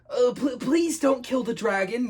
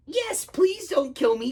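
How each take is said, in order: First: Slow, high pleading yell; raised, urgent begging. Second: Slow, high frightened plea; terrified little dragon; quaking. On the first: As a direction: cry out to stop someone. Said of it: "yelled Jake". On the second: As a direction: beg for your life in a high voice. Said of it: "quaked the dragon". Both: Acted.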